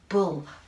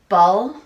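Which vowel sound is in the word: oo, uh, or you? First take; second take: oo; uh. First: The vowel is the oo sound of books. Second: The vowel is the short uh sound. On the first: The speaker calls it right. "sometimes the letter U says uh, as in uh, uh, I like books" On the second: The speaker calls it wrong. "that doesn't sound right"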